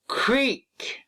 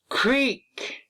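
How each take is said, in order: Both takes have the same delivery.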